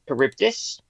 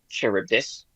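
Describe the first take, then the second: First: The word starts with a hard k sound. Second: The word starts without a hard k sound. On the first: The speaker calls it right. "I've always said Charybdis, because the it's a it's a Chi" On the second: The speaker calls it wrong. "not Charybdis"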